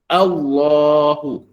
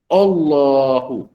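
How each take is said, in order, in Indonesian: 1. Vokal pertama ringan dan terbuka, seperti a. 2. Vokal pertama berat dan membulat, mengarah ke o. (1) "Sepatutnya a, ya, kalimah a" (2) "kalau kita tak jaga, dia akan berbunyi begini ... O"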